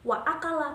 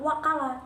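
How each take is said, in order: First: A glottal stop separates wa from akala. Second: The words run together with no glottal stop. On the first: The speaker calls it right. "tetap dibaca a" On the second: The speaker calls it wrong. "Jadi itu cara membacanya salah"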